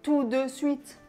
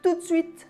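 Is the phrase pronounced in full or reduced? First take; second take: full; reduced. First: Every syllable is pronounced fully and carefully. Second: Some sounds are dropped and run together. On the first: The speaker calls it wrong. "Quand on parle, on ne dit pas" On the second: The speaker calls it right. "on dit"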